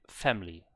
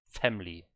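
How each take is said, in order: No difference in how they are said.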